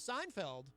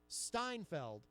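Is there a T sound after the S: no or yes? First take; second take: no; yes. First: The name starts with a plain S sound. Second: The name starts with an added T after S. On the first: The speaker calls it right. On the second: The speaker calls it wrong.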